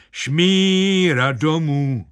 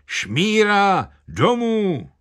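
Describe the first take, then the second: First: High, sustained half-spoken, half-sung cry; half-sung crowd chant. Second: High, drawn-out village heckler's cry; výkřik vesničana. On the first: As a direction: chant it like a whole village joining in. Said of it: "napůl slovem, napůl zpěvem hromovým". (sung, napůl mluvený, napůl zpívaný pokřik) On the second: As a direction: call it out high, stretching the vowels. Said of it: "jeden vesničan vykřikl". (vysoký protáhlý výkřik vesničana) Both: A narrator's reading.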